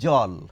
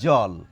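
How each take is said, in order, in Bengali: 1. শব্দটি j ধ্বনি দিয়ে শুরু হয়। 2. শব্দটি j ধ্বনি দিয়ে শুরু হয়।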